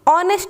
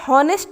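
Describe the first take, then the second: First: The word begins directly with a vowel sound. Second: The word begins with an audible h sound. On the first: The speaker calls it right. "ऑनेस्ट बोलते हैं" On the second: The speaker calls it wrong. "हॉनेस्ट नहीं बोलते"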